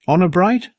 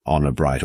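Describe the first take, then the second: First: Put-on high, questioning child's voice; boy's high-pitched, rising appeal; earnest boy. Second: Uncle's level, settled assurance; reassuring uncle. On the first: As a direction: ask it high, seeking a promise. Boy asks uncle to swear secrecy. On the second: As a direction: answer evenly, as a grown-up agreeing. Uncle calmly gives his promise. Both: A narrator's reading.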